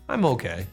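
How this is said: It is said in a reluctant, unhappy tone. The speaker is having a bad day. "if you say it like this... Most people will think that you're having a bad day"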